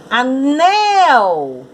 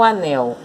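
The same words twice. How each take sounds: First: Anel called out high, the second syllable stretched; calling out Anel. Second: Said in the usual way. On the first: Shown as a demonstration. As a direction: call Anel as if summoning it, leaning on "nel". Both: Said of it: "Vamos chamar o anel".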